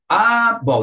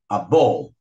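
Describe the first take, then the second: First: The article gets as much stress as the noun. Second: The noun is stressed more than the article. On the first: The speaker calls it wrong. "não" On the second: The speaker calls it right. "o substantivo ele tem que ter mais ênfase"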